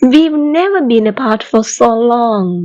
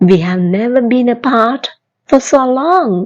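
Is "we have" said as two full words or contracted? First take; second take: contracted; full. First: "We have" is joined into one short syllable. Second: "We have" is said as two full words. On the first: "இந்த we have என்பதை நாம் we've அப்படின்னு சேர்த்து சொல்லலாம்" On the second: "We have"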